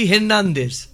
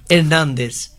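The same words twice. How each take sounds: First: হের্নান্দেজ with the h sounded; the usual হের্নান্দেজ. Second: হের্নান্দেজ with no h, starting on the vowel; Spanish হের্নান্দেজ, h dropped; silent h. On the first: Guest shows how we say the player's name: হের্নান্দেজ. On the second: Guest gives the Spanish name with a silent h: হের্নান্দেজ. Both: Shown as a demonstration. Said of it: "এইচের যেমন উচ্চারণ নেই".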